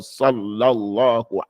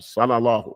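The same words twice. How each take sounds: First: The L sound is held and doubled. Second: The L sound is short and single. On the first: The speaker calls it right. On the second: The speaker calls it wrong. "leave off the shad"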